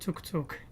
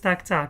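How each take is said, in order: First: The vowel sounds like the 'u' in cut. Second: The vowel sounds like the 'a' in cat. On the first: The speaker calls it wrong. "I was too pronouncing like tuk tuk" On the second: The speaker calls it right. "The word is tac tac"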